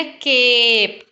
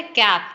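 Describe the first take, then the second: First: केप with ए stretched long; long vowel. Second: कैप with a short, quick vowel. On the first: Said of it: "उसका long sound है". (केप में लंबा ए खींचकर) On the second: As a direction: keep the vowel in कैप brief. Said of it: "यहाँ पे short sound है". (कैप छोटी आवाज़ में) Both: Shown as a demonstration.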